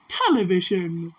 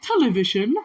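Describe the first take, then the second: First: "Television." said low and falling; "Television." set down firmly with a falling tune; falling statement. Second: "Television?" asked with a rising tune; "Television?" lifted at the end like a question. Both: Shown as a demonstration. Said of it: "why aren't you saying T V".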